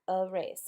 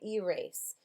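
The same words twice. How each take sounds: First: The first vowel is a weak 'uh' sound. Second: The first vowel is a clear long 'ee' sound. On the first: The speaker calls it right. "but it's erase" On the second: The speaker calls it wrong. "Some people say erase, which makes it a little easier"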